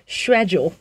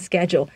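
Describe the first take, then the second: First: The word is said in a British accent. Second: The word is said in an American accent. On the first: "可是英式的发音是schedule" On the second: "英文美式英文会说schedule"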